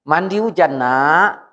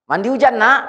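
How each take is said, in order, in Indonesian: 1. Diucapkan dengan nada tenang dan biasa saja. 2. Diucapkan dengan nada marah dan memarahi.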